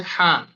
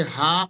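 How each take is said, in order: First: Second Arabic "হা", from another articulation point; second contrasting ha. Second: First Arabic "হা", set apart and lengthened; first contrasting ha. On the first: Teacher comparing two same-named letters, second ha demo. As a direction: say "হা" slowly, distinct from the other ha. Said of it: "কিন্তু উচ্চারণ আলাদা". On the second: Teacher comparing two same-named letters, first ha demo. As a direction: say "হা" slowly as one of two different throat letters. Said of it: "দুটোর মাখরাজও আলাদা". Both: Shown as a demonstration.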